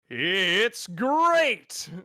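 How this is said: It is said in a Tony the Tiger voice.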